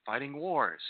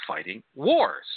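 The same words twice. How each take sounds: First: Said in the usual way. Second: Slow, weighty stress on wars; fighting wars punched like a slogan; slow emphatic. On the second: Shown as a demonstration. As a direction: lean hard into wars, drawn out and louder.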